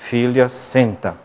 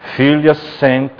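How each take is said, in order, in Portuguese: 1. É dito com um tom calmo e suave. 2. É dito com um tom mais severo e firme.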